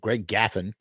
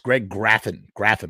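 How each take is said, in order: First: The surname has no R sound after G. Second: The surname has an R sound after G. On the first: The speaker calls it wrong. "They mispronounced his name" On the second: The speaker calls it right. "with an R"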